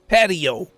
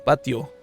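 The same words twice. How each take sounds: First: It has an English pronunciation. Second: It has the speaker's native-language pronunciation. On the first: "they pronounce it patio" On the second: "instead of uh"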